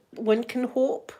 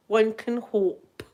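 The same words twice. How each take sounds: First: Slow, longing one can hope; slow dreamy wish; wistful sigh. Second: Slower still, One can hope trailing off; drawn-out resigned hope; slow dreamy wish; wistful echo. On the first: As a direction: let it drag with hope. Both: Real, not acted.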